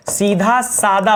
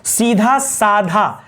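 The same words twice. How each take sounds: First: सीधा सादा slowly, dha then plain da; no puff of air on द in सादा; slow corrected सीधा सादा, only सीधा breathy. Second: सीधा साधा drawn out slowly, dha in both words; slow misreading सीधा साधा, rhyming dhaa endings; aspirated ध twice. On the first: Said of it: "सही मायने पता क्या होता है?". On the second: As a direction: stretch साधा with a breathy ध. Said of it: "सीधा साधा गलत हम लोग बोलते हैं". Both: Shown as a demonstration.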